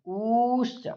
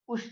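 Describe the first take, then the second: First: The u vowel is held for three beats. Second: The u vowel is held for one beat. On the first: "इसकी हो जाएगी प्लुत संज्ञा" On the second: "जब हम ह्रस्व उकार का बोलेंगे तो हो जाएगा उसकी ह्रस्व संज्ञा"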